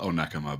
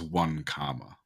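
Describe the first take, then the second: First: It is said as the local place name. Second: It sounds like the two words 'one comma'. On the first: This is the town's real name. The speaker calls it right. "there's a town near me called Onekama" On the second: This is how a computer voice reads it. The speaker calls it wrong. "it will read it as one comma"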